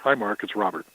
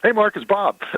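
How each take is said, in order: First: It is said in a serious voice. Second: It is said in a fun, playful voice.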